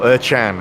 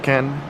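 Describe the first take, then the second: First: The middle consonant is a CH sound. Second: The middle consonant is a hard K sound. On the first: The speaker calls it right. "or Erchan, I should call him" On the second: The speaker calls it wrong. "I called him Erkan initially, and uh, I was corrected"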